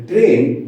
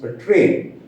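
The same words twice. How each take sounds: First: "train" with a rough, hard R. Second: "train" with a softer, clearer R. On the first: Teacher showing learners the faulty sound, rough R. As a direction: say "train" with the tongue held between the teeth. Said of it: "when the R is rough". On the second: Teacher showing learners clearer speech, soft R. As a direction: say "train" with the tongue touching the upper palate. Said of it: "The R is softer". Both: Shown as a demonstration.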